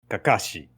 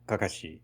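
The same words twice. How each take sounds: First: It has a Portuguese-style pitch pattern. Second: It has a Japanese-style pitch pattern. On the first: "the intonation was Portuguese" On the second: "instead of like"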